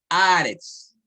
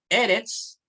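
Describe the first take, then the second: First: The first vowel is long. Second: The first vowel is short. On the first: The word stands at a pause. "la vocal se alarga" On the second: The word is in its regular form. "de segol"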